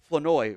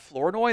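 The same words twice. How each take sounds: First: The R sound in the name is silent. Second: The R sound in the name is pronounced. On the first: The speaker calls it right. "the R is silent in his name" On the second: The speaker calls it wrong. "it's not Flournoy"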